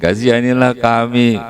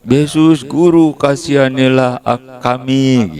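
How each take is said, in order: First: Emphasize kami to show many people; stress on kami. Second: Lepers crying out. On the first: Shown as a demonstration. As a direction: lean on the word kami, not aku. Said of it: "Kalau kasihani aku berarti sendirian". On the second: Retold or imitated. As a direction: call out to Jesus for mercy. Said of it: "Teriak-teriak".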